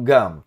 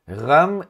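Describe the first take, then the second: First: The first consonant is a hard stop sound. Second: The first consonant is a rough fricative sound. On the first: The speaker calls it wrong. "e não gam" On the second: The speaker calls it right. "neste caso eu vou dizer vehatzeira ramhi, ram"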